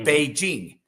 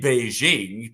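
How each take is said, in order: First: The j is a hard j sound. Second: The j is a soft zh sound. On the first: The speaker calls it right. "It's Beijing" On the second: The speaker calls it wrong. "there's no zhe in the Chinese language"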